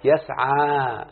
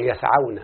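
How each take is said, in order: First: يسعى said very slowly, long final vowel; يسعى with a long drawn ending; يسعى stretched out. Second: يسعون said quick and clipped, no long vowel; يسعون brief and low; يسعون short. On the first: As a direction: drag out يسعى so the final alif is heard. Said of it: "لما أقول مثلًا". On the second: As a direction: snap out يسعون with the alif gone. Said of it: "أقول". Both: Shown as a demonstration.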